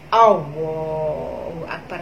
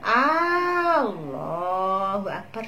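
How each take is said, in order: First: The sounds are over-articulated in an exaggerated way. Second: The first vowel A is drawn out long. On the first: "di fasih-fasihkan hingga salah" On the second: "dipanjangkan A-nya"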